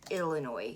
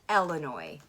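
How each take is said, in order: First: The word begins with an 'ill' sound. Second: The word begins with an 'el' sound. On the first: The speaker calls it wrong. "you don't say Illinois" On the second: The speaker calls it right. "You say Illinois. Like it's an E L"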